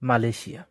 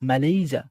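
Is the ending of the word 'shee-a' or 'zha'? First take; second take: shee-a; zha. First: The word ends with a 'shee-a' sound. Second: The word ends with a 'zha' sound. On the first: The speaker calls it wrong. "আমরা যেভাবে উচ্চারণ করি" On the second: The speaker calls it right. "মালয়েশিয়া বলতে কিছু না"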